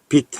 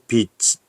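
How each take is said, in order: First: The final consonant sounds like a stopped t. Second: The final consonant sounds like a ch. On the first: The speaker calls it right. "똑같이 bit, bit, bit 해서 대표음 디귿으로 발음합니다" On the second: The speaker calls it wrong. "이렇게 발음하는 게 아니잖아요"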